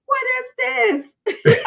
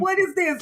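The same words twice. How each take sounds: First: Very high, drawn-out attempt at an accent; badly faked accent, slow and high; Elder Mother. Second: Quicker, high attempt at an accent; lightly faked accent in a raised pitch; Elder Mother. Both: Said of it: "I can't do the accent".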